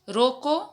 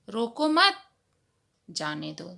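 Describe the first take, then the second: First: There is a pause right after roko. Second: There is no pause right after roko. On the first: Do not stop him; let him go. "यहां पर हम रुकते हैं" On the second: Stop him; do not let him go. "दोनों का अर्थ यहां पर भिन्न हो जा रहा है"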